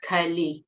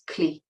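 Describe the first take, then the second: First: The ending is said as two syllables. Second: The ending is said as one syllable. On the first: The speaker calls it wrong. "is not kali" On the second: The speaker calls it right. "it's kli"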